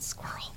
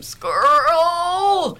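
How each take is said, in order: First: Breathy whisper, barely audible; under her breath. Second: Imitating a stroke patient forcing out the word, high and loud; effortful first word. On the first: Retold or imitated. Nurse quietly cueing her dog, whispered under her breath. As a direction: slip the word out secretly under the breath. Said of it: "under my breath". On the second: Stroke patient finally forcing out her first word, high and loud. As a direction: push the word out like a hard-won first word, pitched up and louder.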